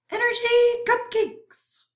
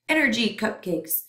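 First: High, strange, greedy germ voice; hungry germ voice. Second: Said in the usual way. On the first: Acted. Germ voice repeats the phrase.

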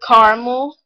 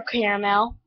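First: "caramel" said as CAR-mul; two-syllable variant. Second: "caramel" said as CARE-uh-mel; three-syllable variant. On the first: Vlogger reading accent-challenge words, "caramel" as CAR-mul. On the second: Offering the other option in an accent challenge, "caramel" as CARE-uh-mel. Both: Shown as a demonstration. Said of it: "or caramel".

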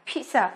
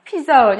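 First: "pizza" as PEET-sa, with a ts sound; correct Italian-style pronunciation. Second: "pizza" with a buzzed z, no t, and altered last vowel; wrong pronunciation. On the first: Teacher respecting the Italian word, "pizza" said as peet-sa. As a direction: say "pizza" with ts in the middle. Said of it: "mà nó phải là pizza". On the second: Teacher warning students off a mistake, "pizza" mispronounced as pi-zo. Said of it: "không được phát âm là pizza hoặc là pizza". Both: Shown as a demonstration.

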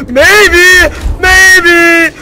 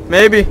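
First: Higher, louder emphatic maybe; sudden shouted maybe; yelled. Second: Said in the usual way. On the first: Real, not acted. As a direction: belt it out. Repeats word, then yells it.

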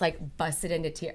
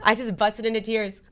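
First: Said in the usual way. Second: On the edge of crying as she repeats "busted into tears"; welling up. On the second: Real, not acted. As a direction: voice tightening with real tears. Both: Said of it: "I'm gonna cry thinking about it".

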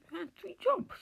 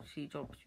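First: Shocked high pitch. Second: Said in the usual way. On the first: Real, not acted. Disbelief on learning of the three jobs, squeaking high and loud. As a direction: voice jumps way up, much higher and louder. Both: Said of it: "why did my voice go high pitch".

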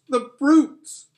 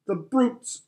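First: Much higher, louder cry of outrage; tearful shout. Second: High, tearful cry of outrage; tearful outburst. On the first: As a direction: let the anger break out in tears. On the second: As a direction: choke it out in tears. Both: Acted. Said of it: "tears streaming down her cheeks".

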